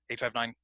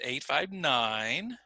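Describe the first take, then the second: First: The pitch stays flat across the numbers. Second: The pitch changes across the numbers. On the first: The speaker calls it wrong. "I didn't say" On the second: The speaker calls it right. "There's that change in my voice"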